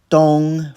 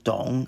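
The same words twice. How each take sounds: First: The pitch stays high and level. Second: The pitch dips low, then rises. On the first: "first tone" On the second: "third tone"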